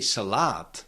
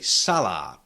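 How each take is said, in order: First: The stress is on the second syllable. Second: The stress is on the first syllable. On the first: The speaker calls it wrong. "to move the stress and say salad" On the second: The speaker calls it right. "we cannot shift the stress from the first syllable to the second one"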